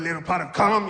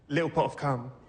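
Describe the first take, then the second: First: It is said in an American accent. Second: It is said in an English accent. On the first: It sounds creepy and off-putting. "That bit doesn't work with an American accent" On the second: It sounds charming, like a children's book. "being English in your country. I can say little pot of cum"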